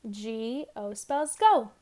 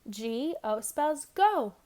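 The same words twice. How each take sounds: The two takes are said the same way.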